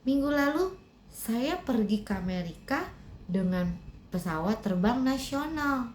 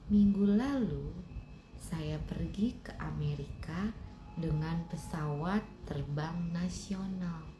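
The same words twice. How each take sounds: First: It is said in a loud, strong voice. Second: It is said in a soft, gentle voice. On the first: "lebih kencang lagi ucapkanlah" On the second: "Dengan suara lembut ucapkanlah"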